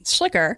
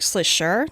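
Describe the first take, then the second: First: The name is said with an American pronunciation. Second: The name is said with a German pronunciation. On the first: This is how the family says it. "So we would say Schlicker" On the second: This is how it is said in Germany. "but in German it's actually more like Schlischer"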